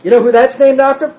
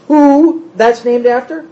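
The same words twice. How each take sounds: First: Said in the usual way. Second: "Who" drawn out and stressed, slow question; slow repeat question with the weight on "Who". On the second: Real, not acted. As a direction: lean long on "Who" as you ask.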